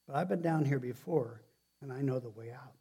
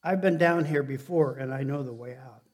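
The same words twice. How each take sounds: First: Said in the usual way. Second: "I've been down here before" louder and driven home; emphatic repeat. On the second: Shown as a demonstration. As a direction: hit "I've been down here before" hard, then settle on "and I know the way out". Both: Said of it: "I'm gonna say it again".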